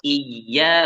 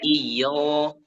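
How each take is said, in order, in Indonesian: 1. Vokal setelah ya itu tipis dan ringan. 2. Vokal setelah ya itu berat dan bulat. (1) "dibaca tipis" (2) "bukan iyo"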